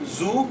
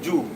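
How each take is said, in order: First: The word begins with a buzzing z sound. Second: The word begins with a j sound. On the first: The speaker calls it right. "It is zoo" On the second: The speaker calls it wrong.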